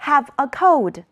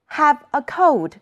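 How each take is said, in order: Both takes have the same delivery.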